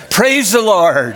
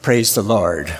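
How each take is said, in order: First: A thankful cry after a near miss; relieved praise. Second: Gentle praise. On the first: Acted. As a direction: exclaim it with huge relief. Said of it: "with a tremendous sigh of relief". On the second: Shown as a demonstration. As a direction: say it calmly and sincerely. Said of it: "it's all right to say".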